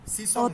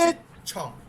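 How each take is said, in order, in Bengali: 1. মধ্যের ব্যঞ্জনটি 's' ধ্বনি। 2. মধ্যের ব্যঞ্জনটি 'ch' ধ্বনি। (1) "সিসং না" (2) "ছয় ছ"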